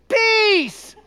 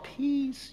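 First: It is said loudly in a child's voice. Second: It is said quietly in an adult voice.

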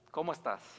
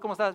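First: It is asked in a slower, caring, sincere way. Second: It is asked in a quick, routine, casual way.

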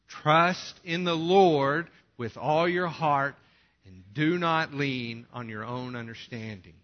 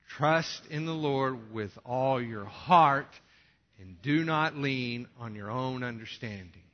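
First: The word Lord is stressed loudly. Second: The word heart is stressed loudly.

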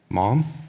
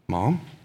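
The two takes are said the same way.

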